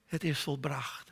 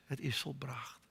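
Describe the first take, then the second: First: Slowed, voiced, measured words; slow, deliberate repeat. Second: Hushed whisper of the last words. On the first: Preacher repeating Jesus's words to God, slow and solemn. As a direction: let each word land slowly. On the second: Preacher praying over the cross, whispering the words. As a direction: breathe it out as a whisper. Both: Real, not acted.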